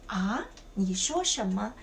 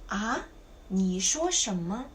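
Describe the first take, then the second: Both takes have the same delivery.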